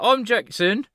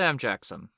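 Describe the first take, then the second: First: It is said in a put-on British accent. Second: It is said in the speaker's normal accent.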